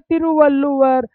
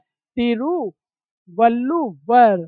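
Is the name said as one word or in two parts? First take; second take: one word; two parts. First: It is said smoothly as a single word. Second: It is said slowly, split into two parts.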